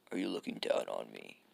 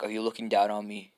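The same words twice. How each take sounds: First: Much lower affronted repeat; low menace. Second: Mildly affronted challenge in usual pitch. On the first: Kid who feels pitied repeats himself to Naruto, low and menacing. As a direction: drop the challenge deep down. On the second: Kid who feels pitied challenges Naruto, affronted. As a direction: put it as an open challenge. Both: Acted. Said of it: "this kid takes it as, like, pity".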